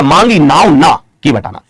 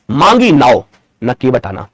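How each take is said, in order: First: मांगी नाव ना together, then के बटाना; ना stressed, closing the first phrase; pause after ना. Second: मांगी नाव, slow break, then न के बटाना; न grouped with के बटाना, slow and lower; pause after नाव. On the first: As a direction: break the line after ना, before के. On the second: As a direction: break the line before न. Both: Shown as a demonstration. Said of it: "एक जगह यति का यहां पर प्रयोग".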